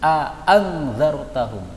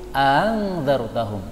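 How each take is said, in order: First: Both glottal stops are pronounced fully and distinctly. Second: The second glottal stop is softened and less distinct. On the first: "bacaan jelas ... ini namanya bacaan tahqiq" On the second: "bacaan yang kurang jelas ... ini bacaan tashil namanya"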